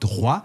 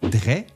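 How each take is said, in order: First: The vowel sounds like 'wah'. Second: The vowel sounds like 'way'. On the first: This is the newer pronunciation. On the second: This is the older pronunciation. "la prononciation « est » passe à « wa »"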